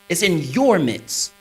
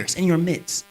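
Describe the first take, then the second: First: Slow, deliberate weight on "your"; stress on "your". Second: Said in the usual way. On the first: Shown as a demonstration. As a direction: draw the line out, leaning on "your". Repeats the line for emphasis.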